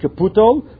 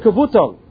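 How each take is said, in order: First: The middle consonant is a p sound. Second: The middle consonant is a v sound. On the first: The speaker calls it wrong. "not with the bays like we have it, but with the pay" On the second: The speaker calls it right. "make it like a base"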